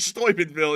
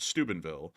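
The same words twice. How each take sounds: First: The first syllable has a German-like vowel. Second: The first syllable sounds like 'stupid'. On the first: The speaker calls it wrong. "Like I would say Steubenville. It sounds more sophisticated" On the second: The speaker calls it right. "which sounds like Stupidville"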